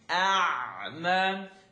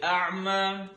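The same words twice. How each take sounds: First: It is said slowly, with clear enunciation. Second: It is said quickly, with less enunciation. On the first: The reciter is a beginner. "But for now" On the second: The reciter is more practiced. "after a while, you'll say"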